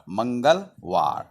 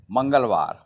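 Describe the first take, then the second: First: Slow "Mangalwar", split before the last syllable; pronunciation demo. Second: Said in the usual way. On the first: Shown as a demonstration. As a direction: say "Mangalwar" slowly as two parts, Mangal and war. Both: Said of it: "What is the pronunciation in Hindi".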